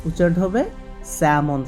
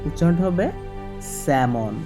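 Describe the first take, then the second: Both takes have the same delivery.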